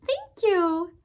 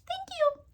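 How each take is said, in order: First: Put-on baby voice. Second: Put-on tiny high baby voice. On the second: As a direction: squeak it like a tiny child. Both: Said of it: "in the little baby voice".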